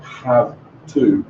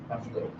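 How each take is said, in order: First: Both words are said fully and separately. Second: The two words are run together as one. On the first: The speaker calls it wrong. "not have to" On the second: The speaker calls it right. "the connected speech with the prosodic is going to be have to"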